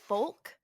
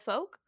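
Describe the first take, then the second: First: The L sound in the word is pronounced. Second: The L sound in the word is silent. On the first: The speaker calls it wrong. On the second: The speaker calls it right.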